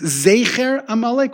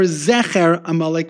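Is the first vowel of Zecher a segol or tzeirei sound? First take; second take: tzeirei; segol. First: The first vowel of Zecher is a tzeirei. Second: The first vowel of Zecher is a segol. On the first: "with a Tzeirei" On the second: "with a Segol"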